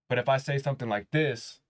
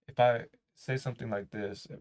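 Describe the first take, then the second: First: It sounds confident and full of conviction. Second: It sounds unsure and lacking conviction.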